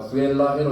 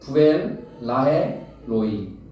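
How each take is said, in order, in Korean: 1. 이 이름은 끊김 없이 이어서 읽어요. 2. 이 이름은 두 글자씩 끊어서 읽어요. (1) "이렇게 읽으면 안 되고요" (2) "두 글자씩 떼 읽어야 돼요"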